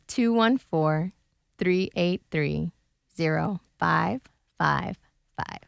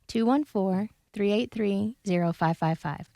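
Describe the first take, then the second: First: The number is said slowly. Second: The number is said quickly.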